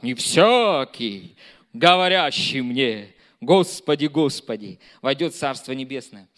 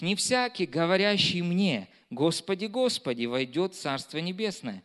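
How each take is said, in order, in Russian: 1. Читается страшно, с осуждением. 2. Читается ровно, нейтрально.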